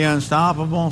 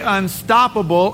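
First: The word is said weakly, without force. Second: The word is said forcefully, with punch. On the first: It sounds as if it could be stopped. The speaker calls it wrong. "you can't say unstoppable like you're about to be stopped" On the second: It sounds as if nothing can stop it. The speaker calls it right. "it's got to have that punch"

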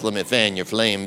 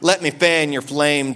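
First: It is said in a deep, sultry put-on voice. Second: It is said in an ordinary speaking voice. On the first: It sounds like a romantic come-on. The speaker calls it wrong. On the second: It is a sincere spiritual encouragement. The speaker calls it right. "it's a spiritual fanning of the flame"

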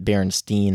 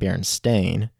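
First: The last syllable sounds like 'stein'. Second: The last syllable sounds like 'stain'. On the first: It sounds like it is spelled with an E. "Most people say it Berenstain" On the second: It sounds like it is spelled with an A. "and not Berenstain"

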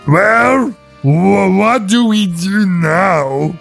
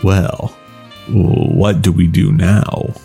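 First: It is said in a plain, hesitant voice. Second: It is said in a smooth, suave voice.

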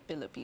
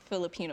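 First: The word begins with a P sound. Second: The word begins with a plain F sound. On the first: "it'd be Filipino" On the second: "instead of saying Filipino"

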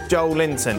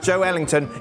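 First: The name is said with three syllables. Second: The name is said with four syllables. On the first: The speaker calls it wrong. "It's not pronounced Joe Linton" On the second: The speaker calls it right. "is pronounced Joe Ellington"

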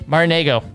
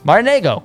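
First: It is said plainly, without extra flair. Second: It is said with lively, Italian-style flair.

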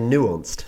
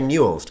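First: The u is said without a glide, 'noo'. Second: The u is said with a 'y' glide, 'nyoo'. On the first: The speaker calls it wrong. "You say nuanced. You can't pronounce your U's" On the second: The speaker calls it right. "You can't say nuanced"

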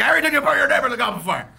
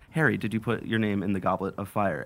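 First: The question is shouted angrily and urgently. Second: The question is asked calmly and quietly.

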